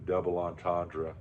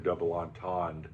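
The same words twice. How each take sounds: First: It is said with an English-style pronunciation. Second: It is said with a French-style pronunciation.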